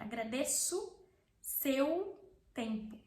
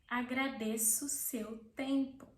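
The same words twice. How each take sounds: First: The final vowel of agradeço sounds like U. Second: The final vowel of agradeço sounds like O.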